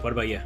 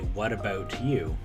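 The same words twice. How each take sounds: First: The words are crunched together into one blur. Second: Each word is said clearly and separately. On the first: "back at home, it would be like" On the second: "if I was to say"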